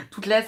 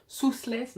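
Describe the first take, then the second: First: Said in the usual way. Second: "Southless" with an S at the start; tentative guess, "Southless" starting on an S sound; unsure mispronunciation. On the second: Real, not acted. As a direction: try out "Southless", higher, S instead of T. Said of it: "je sais pas comment ça se prononce".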